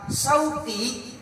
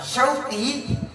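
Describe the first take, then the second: First: It starts with a plain 's' sound. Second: It starts with 'sh' and has a deep 'q'. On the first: Market. The speaker calls it wrong. "menggunakan huruf Sin" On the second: Longing. The speaker calls it right. "tepat memanggil nama saya dengan huruf hijaiyah"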